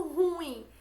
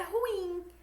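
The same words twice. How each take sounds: First: "ruim" como RÚIM, forte no U; pronúncia popular errada. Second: "ruim" como ru-IM, com I tônico; pronúncia certa. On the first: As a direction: diga "ruim" caindo depois do U tônico. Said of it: "essa é uma forma inadequada". ("ruim" numa sílaba só, im fraco) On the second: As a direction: separe o U e bata no IM de "ruim". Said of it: "O certo é". ("ruim" em hiato, devagar, forte no final) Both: Shown as a demonstration.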